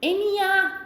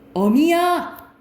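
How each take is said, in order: First: The first vowel is a front vowel. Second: The first vowel is a back vowel.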